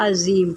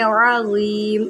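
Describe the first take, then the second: First: عظیم clipped as zeem, no ain at all; quick عظیم dropping the ain; the common mistake: عظیم without ain; wrong pronunciation. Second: عظیم slow, with the ain pressed from the throat; عظیم drawn out, ain and za clear; correct ain. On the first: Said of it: "غلط جو پڑھا جاتا ہے وہ عظیم پڑھا جاتا ہے". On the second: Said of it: "عین نکالیں". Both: Shown as a demonstration.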